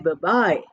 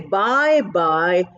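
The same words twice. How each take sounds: First: The first word is reduced to a short 'buh'. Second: Both words are said as a full 'bye'. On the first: The speaker calls it right. "it's pronounced as B" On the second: The speaker calls it wrong. "we don't say bye bye"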